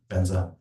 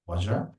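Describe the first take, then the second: First: The word begins with a b sound. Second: The word begins with a v sound. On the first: This is the form handed down in the lineage. "but we pronounce it as Benza" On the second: This is the original Sanskrit form. "Technically, you are right. It's Vajra"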